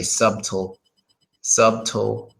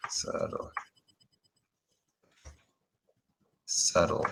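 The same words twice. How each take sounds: First: Subtle with the B sounded, SUB-tel; wrong pronunciation. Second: Subtle whispered with a silent B, SUT-el. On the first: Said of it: "I can guess how people say this wrong". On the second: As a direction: breathe out subtle, no B sound. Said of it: "it's kind of pronounced like". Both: Shown as a demonstration.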